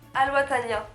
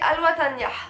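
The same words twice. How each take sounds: First: The name is said without any H sounds. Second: The name is said with its H sounds.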